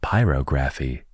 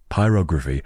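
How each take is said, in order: First: Pyrography said as PIE-roh-GRAF-ee; alternative PYROGRAPHY pronunciation. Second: Pyrography said as pie-ROG-ruh-fee; settled PYROGRAPHY pronunciation. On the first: Podcaster testing a tricky word, saying Pyrography as pyro-GRAPHY. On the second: Podcaster settling on the right word, saying Pyrography as pie-ROG-ruh-fee. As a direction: stress ROG in Pyrography, short unstressed ending. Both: Shown as a demonstration. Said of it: "That is exactly what that word should be".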